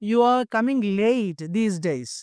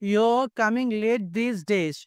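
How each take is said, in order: First: 'You are' is said as two full words. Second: 'You are' is shortened into one syllable. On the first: "యూ ఆర్ full form అయితే యూ ఆర్" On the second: "అది short form చేస్తే యో"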